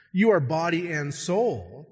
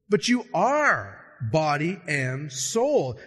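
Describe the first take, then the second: First: Said in the usual way. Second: Slow, "are" leaned on hard; slow emphatic "are" in "you are body and soul"; stress on are. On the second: Shown as a demonstration. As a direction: insist on "are", slowing the whole phrase.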